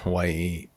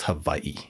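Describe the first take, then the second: First: The middle consonant is a w sound. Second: The middle consonant is a v sound. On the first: This is the usual English way to say it. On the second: This is how it is said in the Hawaiian language.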